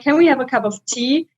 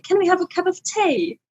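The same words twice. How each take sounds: First: Said in the usual way. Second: "tea" as "tay", higher and softer, British; mock British accent. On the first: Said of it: "Then I can switch to the British dialect". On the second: Shown as a demonstration. British version of asking for tea, higher and softer. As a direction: say "Can we have a cup of tea?" the British way. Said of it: "And in Britain, it's like".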